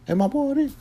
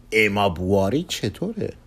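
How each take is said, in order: First: Very high questioning echo of the name; astonished echo. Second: Said in the usual way. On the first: Acted. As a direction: repeat it in a high, wondering pitch. Echoes the suggested name.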